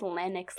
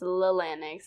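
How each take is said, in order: First: The name begins like the word llama. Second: The name begins with a plain L sound. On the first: The speaker calls it right. "I think it's Lennox like llama" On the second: The speaker calls it wrong. "I don't think it's Lennox"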